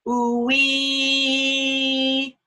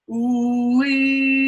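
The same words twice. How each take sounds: First: Arched tongue ooh-wee. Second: Tongue-forward ooh-wee. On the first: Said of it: "the tongue is arched". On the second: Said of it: "With it here". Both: Shown as a demonstration.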